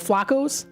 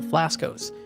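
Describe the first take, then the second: First: The name has no s before the k. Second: The name has an s before the k. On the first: The speaker calls it right. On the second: The speaker calls it wrong.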